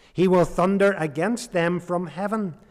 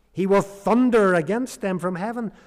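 The two takes are said the same way.

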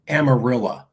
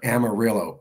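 First: The name ends with an 'ah' sound. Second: The name ends with an 'oh' sound. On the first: The speaker calls it right. "pronounced Amarilla" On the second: The speaker calls it wrong. "I'm sorry"

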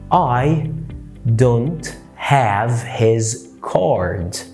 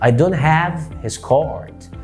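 First: Every word in the sentence is stressed equally. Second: Only "have" and "card" are stressed. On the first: The speaker calls it wrong. "انا هنا تكيت على كل كلمة" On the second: The speaker calls it right. "نطق تك على have وتك على card"

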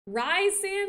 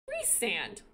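First: The first syllable sounds like 'rise'. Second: The first syllable sounds like 'reese'. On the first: The speaker calls it right. "sounds so much hotter" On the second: The speaker calls it wrong. "And I hate it"

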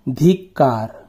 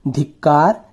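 First: The first vowel is long. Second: The first vowel is short. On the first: The speaker calls it wrong. "ध में बड़ी की मात्रा धी" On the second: The speaker calls it right. "ध में छोटी की मात्रा धी"

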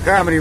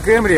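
First: The first vowel sounds like 'a'. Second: The first vowel sounds like 'e'. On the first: The speaker calls it right. "а Камри" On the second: The speaker calls it wrong. "Не Кэмри"

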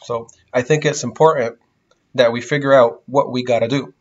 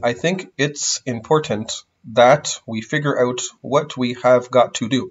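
First: The words are reduced, with glottals and flaps in 'gotta'. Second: Every word is said fully and carefully, with 'have got to' spelled out. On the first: The speaker calls it right. "We usually use glottals and flaps" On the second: The speaker calls it wrong. "But nobody talks like that. I mean, not so exaggeratedly"

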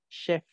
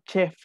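First: The word begins with an sh sound. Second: The word begins with a ch sound. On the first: The speaker calls it right. "Chef con SH" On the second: The speaker calls it wrong. "Tampoco digan chef como decimos en español"

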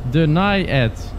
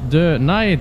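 First: The first syllable has a short I sound. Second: The first syllable has an extra long E sound. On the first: The speaker calls it right. "zonder de extra E die uitspreekt. De die is een enkele I" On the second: The speaker calls it wrong. "Dus denied niet"

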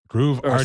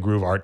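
First: Arte ends in an extra vowel, Portuguese style. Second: Art ends on the consonant, English style. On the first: "That's the Brazilian, you know, pronunciation of it" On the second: "I kind of say Groove Art to people here in English"

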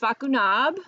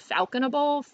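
First: The name ends with a short French '-nab' sound. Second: The name ends with an English '-able' sound. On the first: The speaker calls it right. "So it's Facunab" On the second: The speaker calls it wrong. "I didn't do this the last time. I just kind of said"

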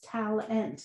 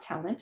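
First: The second syllable has a full, clear vowel. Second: The second syllable has a weak, reduced vowel. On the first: The speaker calls it right. "I made a perfect recording for it" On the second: The speaker calls it wrong. "I thought it was tal. Int"

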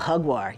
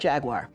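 First: It is pronounced with Spanish sounds. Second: It is pronounced with English sounds. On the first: "That's it" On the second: "In English, we might say Jaguar"

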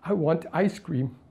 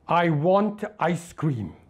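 First: It sounds sad. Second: It sounds angry.

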